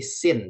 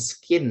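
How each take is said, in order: First: The c is silent, giving a plain s sound. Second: The c is pronounced as a k sound. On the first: The speaker calls it right. "tapi scene. Jadi C-nya tidak dibaca" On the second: The speaker calls it wrong. "itu bukan skin ya"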